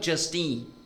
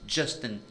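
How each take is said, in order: First: It is said as two words, with weight on teen. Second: It is said as a single two-syllable name. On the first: It means just a teenager. The speaker calls it wrong. "não Justin. Porque teen é teenager" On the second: It is the person's name. The speaker calls it right. "o nome dele é Justin"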